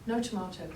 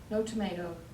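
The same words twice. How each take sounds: First: It is said in a non-American accent. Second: It is said in an American accent. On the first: The speaker reveals she is from elsewhere. "it's very hard for me to adopt another accent" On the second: The speaker hides where she is from. "she adopts an American accent"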